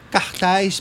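The word is said in a Carioca accent. The speaker calls it right.

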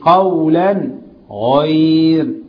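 There is a short pause between the words. The speaker calls it wrong.

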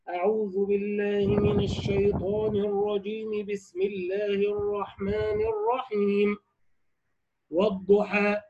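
A pause comes after the second phrase only. "وصل الاستعاذة بالبسملة والوقف على البسملة"

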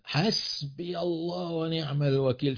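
It is said in a sharp, provocative tone. The speaker is attacking the listener and enraging them. "طريقة الأداء بقى تجعل الآخر أو الأخرى تستشيط غضبا"

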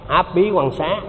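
The h sound is dropped from the second syllable.

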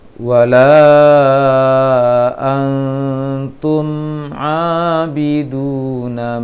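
The m is held briefly and flows into abiduna. The speaker calls it right. "dialirkan sedikit suaranya, baru baca ainnya. Yang betul seperti ini"

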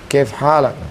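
The words are shortened, dropping the final vowels. This is how people speak it in everyday dialect. "ketika orang Saudi Arabia mengucapkannya udah jadi kaif halak"

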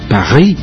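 It is said with a French accent. This is the French name.

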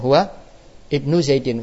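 There is a break between the first two words. "Huwa kita baca putus ya"

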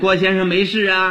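It is said in a coaxing baby-talk tone. The listener is treated like a small child. The speaker calls it wrong. "照着哄孩子那样"

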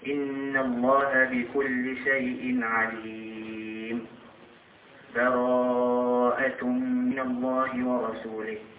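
A full stop with an audible breath splits it. The first passage ends before the next begins. "نقف على آخر الأنفال ثم نأخذ نفس ونقرأ أول سورة البراءة، هذا يسمى الوقف"

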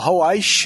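The name is said with a carioca accent.

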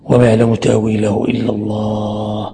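The voice comes to a full stop after 'Allah'. Only God knows its interpretation. "قف وقف تمام"

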